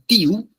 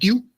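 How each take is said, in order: First: It is said as two separate syllables. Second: It is said as one single syllable. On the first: The speaker calls it wrong. "sino que diría tiu" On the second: The speaker calls it right. "no diría tiu"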